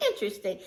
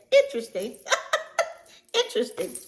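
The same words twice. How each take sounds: First: Low, quieter knowing interesting; hint of a dry remark; quoted skeptical. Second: Hint of an amused remark; mock interesting. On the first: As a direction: mimic her dry Interesting. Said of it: "That was her word". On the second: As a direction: repeat her word with a knowing tease. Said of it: "And she said".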